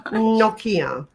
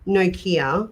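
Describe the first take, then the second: First: "Nokia" with a short "o", NOCK-ia; pronunciation correction. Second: "Nokia" with a long "o", NO-kia; rejected pronunciation. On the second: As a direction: say Nokia as no-KEE-uh, slowly. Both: Shown as a demonstration. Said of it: "not Nokia".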